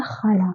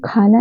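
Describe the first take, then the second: First: खाला begun with a scraped x sound; Persian kh. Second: Said in the usual way. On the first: Shown as a demonstration. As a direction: say खाला with throat friction, not aspirated k. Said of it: "हमें पढ़ना होता है खाला". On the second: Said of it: "खाला नहीं होता".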